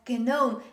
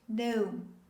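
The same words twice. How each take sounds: First: The word starts with a hard G sound. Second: The word starts with an N sound. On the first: The speaker calls it wrong. "It's not pronounced as gnome" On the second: The speaker calls it right. "the letter G is considered silent"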